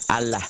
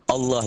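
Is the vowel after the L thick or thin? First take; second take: thin; thick. First: The vowel after the L sounds thin, like A. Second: The vowel after the L sounds thick, near O. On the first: The speaker calls it wrong. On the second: The speaker calls it right. "suara A-nya lebih mendekati O"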